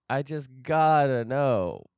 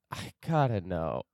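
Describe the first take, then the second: First: "I just gotta know" slower, with gotta stressed; emphatic. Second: Said in the usual way. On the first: Shown as a demonstration. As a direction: lean into "gotta", drawn out.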